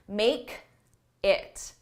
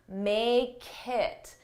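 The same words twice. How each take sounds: First: There is a small pause after the k. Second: The k joins onto it without a pause. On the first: The speaker calls it wrong. "there's that k on make, but it forces me to take a pause" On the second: The speaker calls it right. "I take that k and I put it on the next word"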